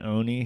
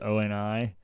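First: The name is said as one whole word. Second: The name is spelled out letter by letter. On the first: The speaker calls it right. "Instead of saying Oni" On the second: The speaker calls it wrong. "he says O-N-I"

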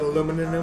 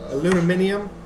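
First: The word has four syllables, with the stress on the second. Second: The word has five syllables, with the stress on the third.

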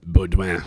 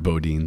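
First: The name is said with a French pronunciation. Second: The name is said with a plain English pronunciation. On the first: The speaker calls it right. "But it's Baudouin, very Frenchy" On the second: The speaker calls it wrong. "The people say Lambert Baudin sometimes"

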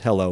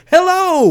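First: It is said plainly, with flat calm. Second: It is said with loud, merry excitement.

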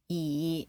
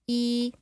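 First: The pitch dips down, then goes up. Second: The pitch stays level throughout. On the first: "E is falling and rising" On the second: "E is like flat"

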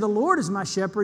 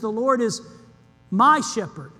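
First: The stress is on "Lord". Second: The stress is on "my".

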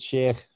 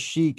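First: The name ends with a throaty final sound. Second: The name ends without a throaty final sound. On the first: This is the technically correct form. "I guess technically it's Sheikh, probably. There's going to be a at the end of it" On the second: This is how most people say it. "I guess everybody says Sheikh"

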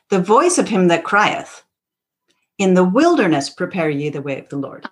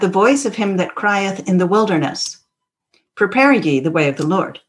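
First: The pause comes after 'crieth'. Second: The pause comes after 'wilderness'.

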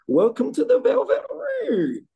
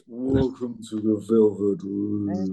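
First: It is said in a higher, thinner voice. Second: It is said in a very deep voice.

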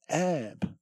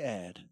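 First: The word ends with a 'b' sound. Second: The word ends with a 'd' sound. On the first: The speaker calls it wrong. "She says ab" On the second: The speaker calls it right. "But she doesn't say ad"

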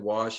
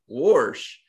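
First: It is said with the family's standard pronunciation. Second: It is said in grandmother's Appalachian pronunciation.

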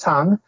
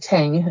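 First: The vowel is like the one in 'tongs'. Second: The vowel is like the one in 'tank'. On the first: This is the name of the dynasty. "but it's pronounced Tang" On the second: This is the name of the drink. "doesn't sound like the drink Tang"

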